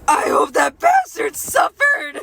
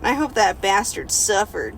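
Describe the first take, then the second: First: It is read in a put-on pig voice. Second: It is read in a normal voice.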